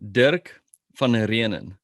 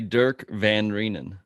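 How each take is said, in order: First: The name has a South African pronunciation. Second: The name has an American pronunciation. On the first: "In South Africa, it would be" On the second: "In America, people say"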